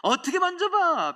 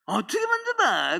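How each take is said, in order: First: Much higher mock old woman's retort; elder's reply repeated. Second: A hint of an old woman's high retort; elder's reply. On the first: Preacher re-voicing the elder's answer, much higher. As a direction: squeak it up as the elder did. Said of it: "잘했어요". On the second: Quoting a church elder's high reply to the preacher. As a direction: toss it back high, how could I. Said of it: "백억 만져보셨어요?".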